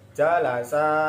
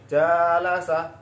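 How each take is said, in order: First: The second syllable's vowel is drawn out long. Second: The first syllable's vowel is drawn out long. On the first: The speaker calls it right. "yang panjangnya ini huruf sin. Maka dibaca yang benar" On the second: The speaker calls it wrong. "ini tidak boleh jalasa ngikut yang atasnya"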